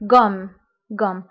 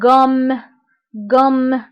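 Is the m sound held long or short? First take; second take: short; long. First: The m sound is short and light. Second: The m sound is pressed and held longer. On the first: The word is spelled with a single m. "الا عندي غير ام وحده فغنطق" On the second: The word is spelled with a double m. "كنضغط على هاد الام"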